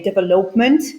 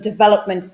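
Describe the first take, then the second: First: It is said the way Polish learners say it. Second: It is said in the standard way. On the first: The speaker calls it wrong. "the Polish always say, ... they say development, which uh, is a huge mistake" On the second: The speaker calls it right. "instead of development"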